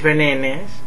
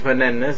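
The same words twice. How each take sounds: First: The word is said in a posh accent. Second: The word is said in a plain accent. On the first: This is how refined people say it. "A gente fina diz bananas" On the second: This is not how refined people say it. "não diz bananas"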